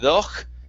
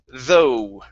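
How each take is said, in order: First: The word ends with a harsh throat sound. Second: The word ends on a plain vowel sound. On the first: The speaker calls it wrong. "the G H at the end does not make a sound. So instead of doch" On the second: The speaker calls it right. "it's though"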